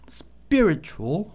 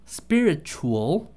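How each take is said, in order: Both takes have the same delivery.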